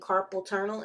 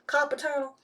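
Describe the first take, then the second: First: It is said in a standard accent. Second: It is said in a Southern accent.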